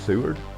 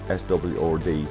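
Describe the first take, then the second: First: The name is said as one two-syllable word. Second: The name is spelled out as separate letters. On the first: The speaker calls it right. "I think it's Seward" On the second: The speaker calls it wrong. "it wasn't S W or D"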